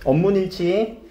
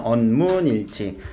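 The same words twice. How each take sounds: First: Said in the usual way. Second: 언문일치 said slowly with a falling close; teacher restating 언문일치 slowly, stressed; slow summing-up stress. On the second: Shown as a demonstration. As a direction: drop and slow down on 언문일치 to fix the term.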